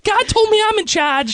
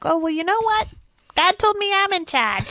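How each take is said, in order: First: Squeaky mimicry. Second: Mock retort. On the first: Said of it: "they say it like that". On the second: Peasant mocks king back.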